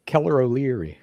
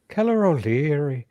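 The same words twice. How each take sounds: First: Said in the usual way. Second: Playful mock Irish lilt; Irish accent. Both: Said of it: "Your Irish accent?".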